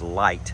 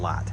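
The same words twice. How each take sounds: First: It is said in a standard accent. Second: It is said in a Western Kentucky accent.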